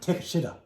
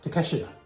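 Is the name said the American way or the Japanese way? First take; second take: American; Japanese. First: The name is said with American pronunciation. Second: The name is said with Japanese pronunciation. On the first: The speaker calls it wrong. "everybody in the U S would just say" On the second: The speaker calls it right. "The proper pronunciation"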